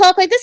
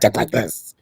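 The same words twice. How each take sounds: First: The voice is light, sweet and nice. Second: The voice is deep, rough and gravelly.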